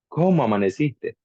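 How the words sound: It sounds warm, tender and questioning. The speaker is newly married and in love. "Así bien romántico"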